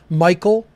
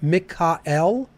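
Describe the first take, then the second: First: The name is said the modern English way. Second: The name is said the ancient way.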